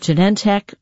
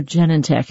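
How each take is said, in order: First: "Genentech" as juh-NEN-tek; second-syllable stress. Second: "Genentech" as JEN-en-tek; first-syllable stress. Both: Retold or imitated. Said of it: "is it Genentech or Genentech?".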